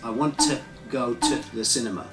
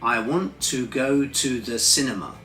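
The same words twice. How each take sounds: First: The word 'to' is reduced to schwa. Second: The word 'to' keeps a full vowel. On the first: "it actually changes um, when we do a full sentence" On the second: "Many learners will go"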